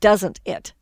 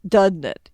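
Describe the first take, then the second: First: Each sound in the words is clearly articulated. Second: The words are slurred together and run fast. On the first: The speaker calls it right. "instead of" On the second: The speaker calls it wrong. "we get sloppy and end up saying something like"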